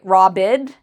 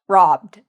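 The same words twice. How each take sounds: First: The word ends without a plain d sound. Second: The word ends with a plain d sound. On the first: The speaker calls it wrong. "we don't say robbed" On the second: The speaker calls it right. "we say robbed with a d sound at the end"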